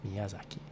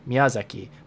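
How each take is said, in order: First: The accented syllable is only higher in pitch. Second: The accented syllable is louder, longer and higher. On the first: "take away the stress part of it and only keep the pitch" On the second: "if you start by saying"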